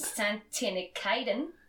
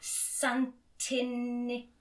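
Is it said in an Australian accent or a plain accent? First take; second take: Australian; plain. First: It is said in an Australian accent. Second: It is said in the speaker's usual accent.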